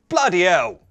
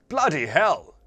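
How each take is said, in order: First: The h at the start of hell is dropped. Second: The h at the start of hell is pronounced. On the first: The speaker calls it right. "the H's, also in the bin" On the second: The speaker calls it wrong.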